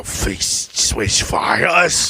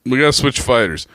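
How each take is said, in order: First: A hammed-up gangster correcting himself; mock slow drawl. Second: Said in the usual way. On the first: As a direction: stretch every syllable, mocking.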